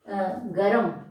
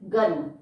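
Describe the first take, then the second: First: A short a vowel separates the g and r. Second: The r follows the g with no vowel between. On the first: "यहाँ पर अ का आगमन होने से ये शब्द बन गया है गरम" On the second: "ग, और उसके बाद जो र है वो स्वर रहित है"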